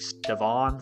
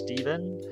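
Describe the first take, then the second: First: The name ends with a full 'van' sound. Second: The name ends with a short 'ven' sound. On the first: This is how other people wrongly say the name. The speaker calls it wrong. "People have been messing up my name my whole life because it's spelled with an A" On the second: This is how the name's owner says it. The speaker calls it right. "My name is Steven"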